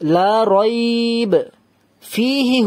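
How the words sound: It stops after 'rayb' and runs on through 'fihi'. "রইব, এখানে থামলাম, তাহলে এবার এখানে ফিহি হুদাল্লিল, এখানে তাহলে থামলাম না।"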